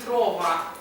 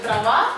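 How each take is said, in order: First: The first vowel sounds like 'o'. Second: The first vowel sounds like 'a'. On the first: The speaker calls it wrong. "мы не говорим трова" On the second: The speaker calls it right. "в слове трава"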